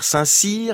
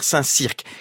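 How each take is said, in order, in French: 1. Le nom se termine sans son k final. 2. Le nom se termine avec un son k final.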